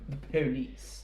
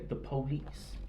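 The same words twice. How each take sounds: First: It is said in a posh British accent. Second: It is said in a Southern American accent.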